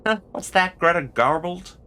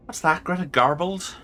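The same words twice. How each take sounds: First: Higher-pitched attempt at Scottish slipping into American; wobbly Scottish gone American; accidental American accent. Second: Higher-pitched put-on Irish lilt; makeshift Irish accent. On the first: Player voices a game character, accent slipping from Scottish into American. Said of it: "now the American is happening". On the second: Player retries a game character's line in a makeshift Irish accent. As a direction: have a go at Irish. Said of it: "Irish will have to do".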